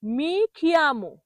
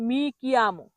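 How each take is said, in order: First: Slow মি খিয়ামো with breath after k; common mispronunciation. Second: মি কিয়ামো with unaspirated k; careful model কিয়ামো, no puff after k; correct pronunciation. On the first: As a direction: say মি খিয়ামো as "mi khi-amo". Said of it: "এটাকে ভুল যখন বলে তখন বলা হয়". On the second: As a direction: say মি কিয়ামো as "mi ki-amo". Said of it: "সঠিক হলো". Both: Shown as a demonstration.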